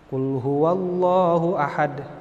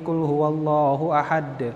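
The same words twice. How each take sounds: First: It is recited at a moderate, middle pace. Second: It is recited quickly, with the phrases run together. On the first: "pelan tidak, cepat tidak, tapi dia tengah-tengah" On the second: "al-hadr. Cepat bacaannya"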